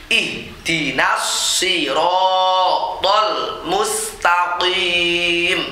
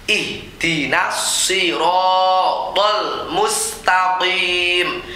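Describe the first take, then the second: No difference in how they are said.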